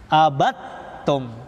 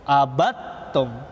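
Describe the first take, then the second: First: The d merges into the following t. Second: The same.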